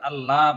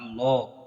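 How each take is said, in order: First: The L sound is light and thin. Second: The L sound is heavy and thick. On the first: The speaker calls it wrong. "আল্লাহ বলা যাবে না" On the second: The speaker calls it right. "সেটা মোটা করে পড়তে হবে তোমাকে"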